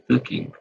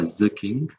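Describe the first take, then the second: First: The first word starts with a th sound. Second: The first word starts with a z sound. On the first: The speaker calls it right. "On dit" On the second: The speaker calls it wrong. "c'est pas Za. On dit pas"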